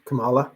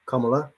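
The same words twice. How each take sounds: First: Kamala with the middle syllable stressed, "kuh-MAH-la"; stress on second syllable. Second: Kamala with the first syllable stressed, "KUM-uh-la". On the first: Speaker tries out a politician's name, stressing the middle of Kamala. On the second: Speaker corrects a politician's name, stressing the start of Kamala. Tries a name two ways. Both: Shown as a demonstration.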